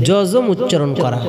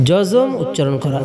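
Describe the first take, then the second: No difference in how they are said.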